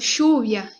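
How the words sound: It starts with a hushing 'sh' sound. "no espanhol argentino é diferente, é chiado"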